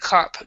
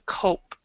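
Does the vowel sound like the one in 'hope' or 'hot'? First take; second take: hot; hope. First: The vowel is short, like in 'hot'. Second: The vowel is long, like in 'hope'. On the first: The speaker calls it wrong. "cope instead of cop" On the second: The speaker calls it right. "cope like hope"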